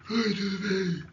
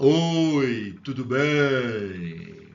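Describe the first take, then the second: First: It is spoken while breathing in, sounding strained. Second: It is spoken while breathing out, sounding normal. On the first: The speaker calls it wrong. "inalando o ar" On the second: The speaker calls it right. "Eu estou soltando o ar"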